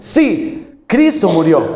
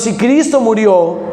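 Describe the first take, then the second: First: There is a pause after sí. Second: It runs on without a pause after si.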